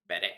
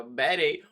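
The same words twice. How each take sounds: First: Said in the usual way. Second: Slow southern drawl on Betty; Betty in a thick southern accent. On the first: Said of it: "work on my southern accent". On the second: Shown as a demonstration. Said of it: "my southern accent so I can go".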